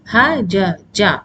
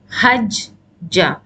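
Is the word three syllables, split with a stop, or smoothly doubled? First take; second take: three syllables; split. First: Three separate open syllables, each with a vowel. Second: A short stop breaks the word between two j's. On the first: This is the original form. "originally it was ha ja ja" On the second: This is an intermediate form that was disliked. "you know stopping in between and then pronouncing"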